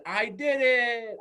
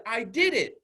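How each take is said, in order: First: Loud, high, long drawn-out cheer; leaping triumph. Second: Put-on louder, higher child's triumph; excited child. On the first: Retold or imitated. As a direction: stretch it out like a kid jumping for joy. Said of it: "jumped in midair and said". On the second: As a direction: imitate a kid proudly celebrating. Child's first celebration.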